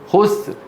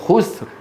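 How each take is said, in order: First: The final R is barely audible after the S. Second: The same.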